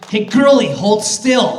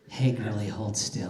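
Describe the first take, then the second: First: It is said angrily, like Scara when mad. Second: It is said calmly, without anger.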